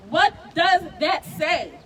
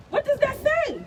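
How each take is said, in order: First: Slow, loud, every word weighed; slow emphatic repeat. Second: A pained, disbelieving demand; outraged question. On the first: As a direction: lean hard on each word of "What does that say?". Repeated question, slower and heavier. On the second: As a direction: cry it out high and loud. Outraged rhetorical question at rally. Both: Real, not acted.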